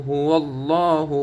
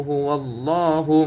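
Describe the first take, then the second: Both takes have the same delivery.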